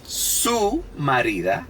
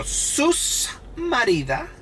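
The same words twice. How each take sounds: First: "su" with no S at the end; standard Spanish form. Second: "Sus" with an added, drawn-out final S, high and slow; accentuated Dominican S. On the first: Shown as a demonstration. Explaining standard Spanish to viewers, "su" without a final S. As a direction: say "su marida" slowly, leaving "su" open. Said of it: "Because in Spanish, it's su marida". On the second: Retold or imitated. Imitating Dominicans for viewers, "Sus" with a stressed extra S. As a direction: exaggerate the S ending "Sus" before "marida". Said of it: "when they wanna accent-, accentuate it".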